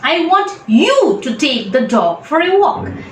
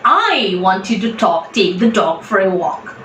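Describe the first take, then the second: First: The stress is on the word you. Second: The stress is on the word I.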